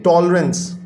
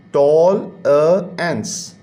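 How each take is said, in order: First: Said in the usual way. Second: tolerance in three separate beats, टॉल, अ, एंस; teacher sounding out टॉल, अ, एंस piece by piece; split into syllables. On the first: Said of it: "दो हिस्सों में तकसीम होकर बोला जाता". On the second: Shown as a demonstration. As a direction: break it slowly as टॉल, अ, एंस with gaps between. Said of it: "तीन words का syllable".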